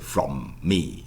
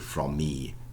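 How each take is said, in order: First: Two separate m sounds are pronounced. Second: Only one m sound links the words. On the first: The speaker calls it wrong. "you wouldn't say from me" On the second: The speaker calls it right. "just one M"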